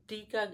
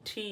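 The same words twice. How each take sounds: First: Said in the usual way. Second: "ঠি" with a hard puff on th; aspirated T. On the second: Shown as a demonstration. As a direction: hit "ঠি" as breathy retroflex t plus i. ("ঠি" শক্তভাবে) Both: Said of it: "টিকে বলবো আজ থেকে ঠি".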